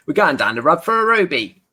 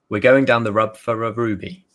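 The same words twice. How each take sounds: First: Broad Cockney, pitched up; thick Cockney accent, a bit higher. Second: Said in the usual way. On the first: Shown as a demonstration. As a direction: say it like a Londoner from the East End. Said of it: "let me say that in Cockney". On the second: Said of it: "Sorry, let me say that in Cockney".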